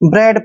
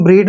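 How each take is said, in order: First: The vowel is a short 'eh' sound. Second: The vowel is a long 'ee' sound. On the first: The speaker calls it right. "ब्रेड पढ़ते हैं" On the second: The speaker calls it wrong. "कभी हम ब्रीड नहीं पढ़ते इसको"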